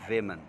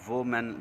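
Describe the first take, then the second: First: The first syllable sounds like wih. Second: The first syllable sounds like woe. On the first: The speaker calls it right. "इसकी दुरुस्त जो अदायगी है वो है वेमन" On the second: The speaker calls it wrong. "दूसरा word है वोमेन, लोग पढ़ते हैं"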